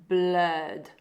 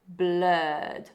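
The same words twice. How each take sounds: The two takes are said the same way.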